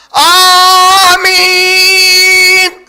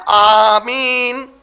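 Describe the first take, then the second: First: Drawn-out, shouted آمین, very loud and stretched; overdone shouted آمین; screamed amen. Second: آمین said clearly and held long, not shouted; a firm, steady, drawn-out آمین; firm amen. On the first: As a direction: scream آمین at full volume, long. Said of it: "ایسا چیخ کے نہیں بولتے تھے". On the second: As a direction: say آمین audibly and slowly, no screaming. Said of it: "زور سے کا مطلب کیا ہے". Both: Shown as a demonstration.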